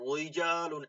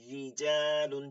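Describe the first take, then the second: First: The r is said heavy and full. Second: The r is said thin and light. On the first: The speaker calls it wrong. "এরকম পড়া যাবে না" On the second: The speaker calls it right. "চিকন করে"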